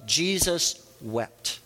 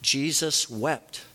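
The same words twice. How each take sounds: First: "Jesus wept." said very slowly, each word weighed, falling at the end; slow solemn reading. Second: "Jesus wept." slow, ending on a lifted, open tone; slow rising reading. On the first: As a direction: let "Jesus wept." sink slowly and heavily. Quoting the shortest verse slowly. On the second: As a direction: draw out "Jesus wept." and let it rise. Repeats the verse slowly, rising. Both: Shown as a demonstration.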